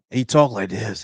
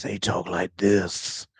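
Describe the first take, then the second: First: Said in the usual way. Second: Slow, low, soft mumbling Daryl voice; Daryl impression. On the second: Shown as a demonstration. Gamer mocks Daryl's speech to chat, slow mumbled impression. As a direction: drag it out the way Daryl talks.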